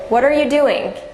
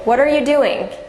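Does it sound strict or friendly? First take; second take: strict; strict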